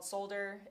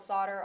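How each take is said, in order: First: It is said in a British accent. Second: It is said in an American accent.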